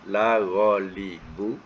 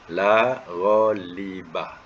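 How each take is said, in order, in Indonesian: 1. Kata terakhir berakhir dengan vokal 'u'. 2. Kata terakhir berakhir dengan vokal 'a'. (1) "kalau dibaca baris depan" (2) "isim itu berbaris atas"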